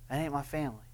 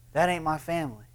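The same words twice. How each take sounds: First: A softer second take, "ain't" stressed as it trails off; quiet echo. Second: Said in the usual way. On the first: Shown as a demonstration. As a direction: repeat "That ain't my family." much softer, the word "ain't" leaned on.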